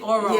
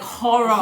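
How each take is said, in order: First: The word begins directly with a vowel sound. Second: The word begins with an added H sound.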